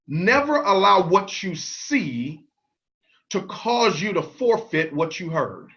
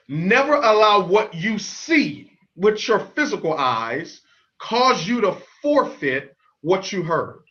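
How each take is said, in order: First: It is said at normal speed. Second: It is said slowly.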